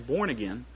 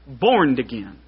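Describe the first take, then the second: First: The word born ends without a d sound. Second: The word born ends with a d sound. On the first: "Country people don't say born again" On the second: "They say borned. There's a D in it"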